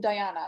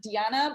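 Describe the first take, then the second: First: The name is said the Irish way. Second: The name is said the Latvian way. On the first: This is how people in Ireland say the name. "Irish people call you Diana" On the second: This is how the name is said in her home country. "your uh, country pronunciation is Diana"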